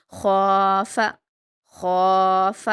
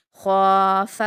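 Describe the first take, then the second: First: خواف thick from the throat, last one very slow; heavy throaty kha. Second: خواف with a thick throat خا held long; heavy throaty kha. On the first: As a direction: repeat it, stretching the خا. (خا کو موٹا اور لمبا) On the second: (خا حلق سے، موٹا اور کھینچ کر) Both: Shown as a demonstration. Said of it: "خا کو حلق سے ادا کرتے ہیں اور موٹا پڑھتے ہیں".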